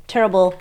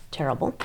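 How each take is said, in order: First: "terrible." said louder and firmer, a word to lean on; stressed terrible. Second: A soft, falling "Terrible." said half to herself; quiet terrible. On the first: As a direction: lean into "terrible." as a clear restatement. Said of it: "Well, I mean". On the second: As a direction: let "Terrible." drop low and soft, almost to herself. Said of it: "Well, I mean, terrible". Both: Real, not acted.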